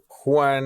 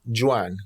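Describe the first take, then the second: First: The name has a Spanish pronunciation. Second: The name has an English pronunciation.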